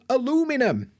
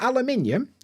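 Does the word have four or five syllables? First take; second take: four; five. First: The word is said with four syllables. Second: The word is said with five syllables. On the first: The speaker calls it right. "No, aluminum" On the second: The speaker calls it wrong. "Not aluminium"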